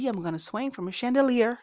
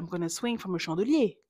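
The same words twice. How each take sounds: First: Chandelier is pronounced the English way. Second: Chandelier is pronounced like the French word. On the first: The speaker calls it right. "Elle dit" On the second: The speaker calls it wrong. "elle dit pas"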